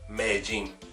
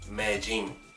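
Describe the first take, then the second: First: The double L sounds like an English j. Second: The same.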